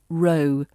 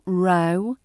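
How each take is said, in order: First: The vowel sounds like the one in 'go'. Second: The vowel sounds like the one in 'now'. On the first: A line of parking spaces. The speaker calls it right. "it's row" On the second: A quarrel or argument. The speaker calls it wrong. "It's not row"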